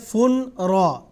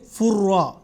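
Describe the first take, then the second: First: The n sound is kept before the r. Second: The n sound merges into a doubled r. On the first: The speaker calls it wrong. "हम ऐसे नहीं पढ़ेंगे फुन रा, ये गलत है" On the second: The speaker calls it right. "नून की आवाज़ है वो रा में तब्दील होगी, पढ़ेंगे फुर्रा"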